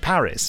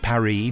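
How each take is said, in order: First: The word is said with English pronunciation. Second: The word is said with French pronunciation. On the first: "that's the English way of pronouncing Paris" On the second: "we don't say Paris"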